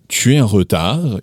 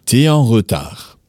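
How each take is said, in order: First: Said in the usual way. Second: T'es en retard with tu es squeezed into one syllable; casual slang form. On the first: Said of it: "instead of saying". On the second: Shown as a demonstration. Teacher showing the slangy contraction. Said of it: "you might say".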